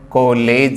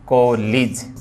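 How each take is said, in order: First: The last syllable has an 'eh' vowel. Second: The last syllable has an 'ih' vowel. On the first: The speaker calls it wrong. "ए का नहीं" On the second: The speaker calls it right. "सही जो है वो फोन क्या है, ए का नहीं बल्कि ई का है"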